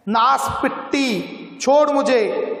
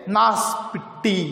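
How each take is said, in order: First: Angry shout. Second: Said in the usual way. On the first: Acted. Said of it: "बच्चे वाली औरत ने चिल्लाकर कहा". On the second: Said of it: "गाली देती है देहांती बोल में".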